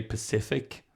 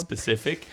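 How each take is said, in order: First: "Pacific" for specific, starting with puh; Irish mispronunciation. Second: "specific" with the initial sp intact; standard pronunciation. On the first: Explaining Irish speech to co-host, "Pacific" without the s. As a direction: drop the first s, saying "Pacific". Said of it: "people will say Pacific". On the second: Contrasting with the Irish habit, "specific" said fully. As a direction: sound the first s of "specific". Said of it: "instead of specific". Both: Shown as a demonstration.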